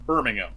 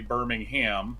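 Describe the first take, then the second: First: Birmingham is said with a British pronunciation. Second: Birmingham is said with an Australian pronunciation. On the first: "some people in the U K may say Birmingham" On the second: "I would say Birmingham"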